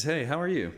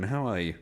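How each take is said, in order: First: Breezy American greeting; light American lilt; American accent. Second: Said in the usual way. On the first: Real, not acted. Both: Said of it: "Don't know why that was American".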